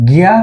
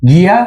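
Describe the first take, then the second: The two takes are said the same way.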